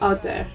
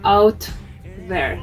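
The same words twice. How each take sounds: First: The t is made against the teeth. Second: The t is made on the gum ridge. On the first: The speaker calls it right. "here it's dental in the example" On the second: The speaker calls it wrong. "We don't say out there"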